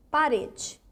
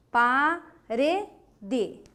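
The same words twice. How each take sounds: First: Said in the usual way. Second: "Parede" broken into pa, re, de with gaps; syllable by syllable. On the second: Shown as a demonstration. Teacher showing the class the strong syllable, "Parede" syllable by syllable. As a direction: split "Parede" into slow separate syllables. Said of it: "Qual é a sílaba forte?".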